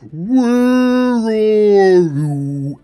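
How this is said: It is said in a deep, drawn-out whale voice.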